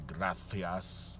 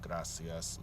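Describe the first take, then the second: First: The c sounds like th, Castilian style. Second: The c sounds like s, Latin American style.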